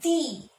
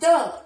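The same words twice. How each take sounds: First: The word ends in a long 'ee' vowel. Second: The word ends in a short 'uh' vowel. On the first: The next word begins with a vowel sound. "whenever you have a vowel sound for the next letter, the will be pronounced" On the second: The next word begins with a consonant sound. "when it is a consonant sound, you will pronounce this word as the"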